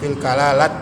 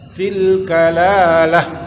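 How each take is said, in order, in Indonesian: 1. Kata itu berakhir dengan bunyi t. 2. Kata itu berakhir dengan bunyi h. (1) "bukan fil kalalat lagi" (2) "jadi kalau diwakafkan dia menjadi ha"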